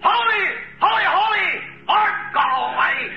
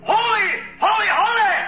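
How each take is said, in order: First: High full shout of holy; hollered again. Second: High ringing shout of holy; hollered praise. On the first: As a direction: belt it out like shaking the temple. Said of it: "he hollered again". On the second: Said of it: "When he hollered". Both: Acted.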